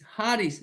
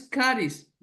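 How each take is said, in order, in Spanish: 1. Empieza con un sonido h gutural. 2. Empieza con un sonido k fuerte. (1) "como J" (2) "no es caris, como algunos lo pronuncian"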